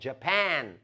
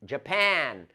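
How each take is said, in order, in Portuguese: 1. A tônica está na segunda sílaba. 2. A tônica está na segunda sílaba.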